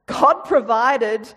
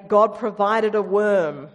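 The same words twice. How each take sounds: First: GOD provided, slow and louder with weight on God; slow emphatic. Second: Said in the usual way. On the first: A narrator's reading. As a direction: lean hard on God in God provided. Dramatic retelling of Jonah.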